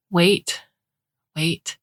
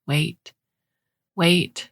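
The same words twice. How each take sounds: The two takes are said the same way.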